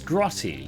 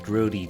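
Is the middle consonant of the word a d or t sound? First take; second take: t sound; d sound. First: The middle consonant is a crisp t sound. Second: The middle consonant is a soft d sound. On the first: The speaker calls it right. "it's grotty" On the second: The speaker calls it wrong. "Why do Americans say grody?"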